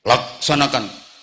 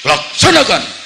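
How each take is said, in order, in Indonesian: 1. Diucapkan dengan lembut dan ketakutan. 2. Diucapkan dengan keras dan tajam. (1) "Bansere wedi" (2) "saya digetaki meneh"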